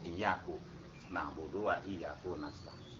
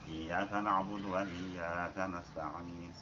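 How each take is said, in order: First: The word 'iyyaka' ends with a 'u' vowel. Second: The word 'iyyaka' ends with an 'a' vowel.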